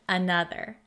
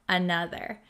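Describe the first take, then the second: Both takes have the same delivery.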